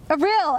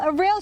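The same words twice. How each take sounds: First: Excited call. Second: "Aril!" called much higher, rising at the end; rising excited call. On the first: Dejai calls to her approaching dolphin friend, falling excited call. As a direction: call the name out as you swim toward him. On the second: Dejai calls the dolphin's name again, higher rising call. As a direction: throw the name up high, eager to be heard. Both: A narrator's reading. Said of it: "she cried".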